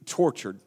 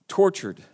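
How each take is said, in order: First: Said in the usual way. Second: Tortured repeated at full voice, firm and falling; stressed word. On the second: Shown as a demonstration. Preacher repeating the key word, stressed. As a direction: hit Tortured squarely. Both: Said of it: "there's the word I want you to see".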